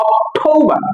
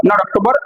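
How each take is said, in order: First: অক্টোবর as ok-THOU-ba, aspirated t, higher; correct pronunciation. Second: অক্টোবর as ok-to-bor, run together; wrong pronunciation. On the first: Teacher giving the right form, correct pronunciation. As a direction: say অক্টোবর ending in "-ba", no r. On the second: Teacher rejecting what we say, wrong pronunciation. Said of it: "এটাকে আমরা বলি". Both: Shown as a demonstration.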